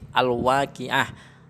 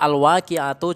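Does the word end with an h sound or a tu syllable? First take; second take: h sound; tu syllable. First: The word ends with a silent h sound. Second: The word ends with a tu syllable. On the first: The reading stops at this word. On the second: The reading continues past this word.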